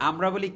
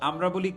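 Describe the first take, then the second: The two takes are said the same way.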